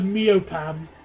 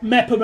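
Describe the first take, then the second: First: The first syllable sounds like 'mee-oh'. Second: The first syllable sounds like 'mep'. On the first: The speaker calls it wrong. "I pronounced Mepham as Meopam because I had no idea" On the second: The speaker calls it right. "it was just a Mep"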